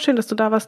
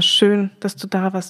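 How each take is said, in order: First: It is said in a quick, offhand way. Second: It is said in a warm, sincere way. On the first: It is a routine goodbye formula. The speaker calls it wrong. "Also nicht einfach nur, ja" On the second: The presence was truly valued. The speaker calls it right. "sondern es war"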